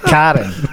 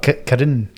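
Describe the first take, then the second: First: The A vowel in the first syllable is emphasized. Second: The A vowel in the first syllable is plain. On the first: The speaker calls it right. "So, emphasis on the A" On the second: The speaker calls it wrong. "Not Karen"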